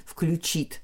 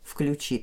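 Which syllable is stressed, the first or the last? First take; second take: last; last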